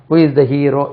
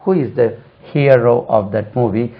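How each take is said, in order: First: Hero said "HEE-ro", no glide; wrong hero. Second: Hero said "HEE-uh-ro", with a glide; slow question, hero gliding from ee to uh; correct hero. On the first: Teacher gives learners the faulty sentence, glideless mispronunciation. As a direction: ask it with pure long ee in hero. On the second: Teacher gives the corrected sentence, glided model pronunciation. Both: Shown as a demonstration. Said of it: "தவறு".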